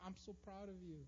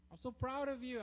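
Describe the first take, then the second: First: Quiet and tender; tender whisper-soft praise. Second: Louder and higher, bursting with pride; emphatic praise. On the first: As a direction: hush it to a crying child. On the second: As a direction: lift it with joy. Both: Retold or imitated. Father comforting crying son.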